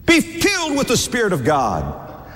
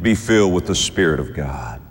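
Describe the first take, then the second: First: "Be filled" pitched high, falling to "God"; high-pitched pulpit emphasis on "filled"; emphatic exhortation. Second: Said in the usual way. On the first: Real, not acted. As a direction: repeat it as a high, urgent preacher's call.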